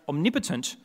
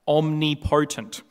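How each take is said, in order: First: The stress falls on the second syllable, 'nip'. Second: The stress falls on the 'po' of 'potent'. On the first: The speaker calls it right. "pronounced omnipotent" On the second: The speaker calls it wrong. "not omnipotent"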